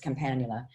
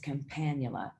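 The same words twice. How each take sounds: First: The stress is on the third syllable. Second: The stress is on the second syllable. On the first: The speaker calls it wrong. "I learned it as campanula" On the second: The speaker calls it right. "campanula is the right way to say it"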